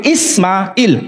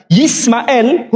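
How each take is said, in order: First: Ismail starting on a bare i and ending in "il"; long i in the last syllable of Ismail; Arabic form. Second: Yismael starting on a y sound and ending in "el"; Hebrew form. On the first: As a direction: say Ismail slowly, "Is-ma-il", with no Y. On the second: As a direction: say Yismael with an audible Y, "Yis-ma-el". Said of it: "huruf Ya, Yod". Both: Shown as a demonstration.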